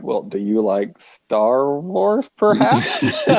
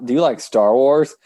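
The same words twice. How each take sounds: First: Drawn-out question. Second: Said in the usual way. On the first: Retold or imitated. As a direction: stretch it out, teasing. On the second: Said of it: "I was like".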